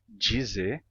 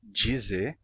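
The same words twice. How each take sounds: First: The D is palatalized into a 'j' sound. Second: The same.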